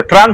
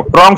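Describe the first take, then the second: First: ট্রাং as traang, open "aa" vowel; standard pronunciation. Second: ট্রং as trong, rounded "o" vowel; local mispronunciation. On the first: Shown as a demonstration. Repeating the sound they cannot pronounce, ট্রাং with open "aa". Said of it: "হিনে মাইয়া". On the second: Retold or imitated. Repeating how Borok speakers say it, ট্রং with rounded "o". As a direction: turn the "aa" into "o": ট্রং. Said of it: "উচ্চারণ খাই মাইয়া বড়".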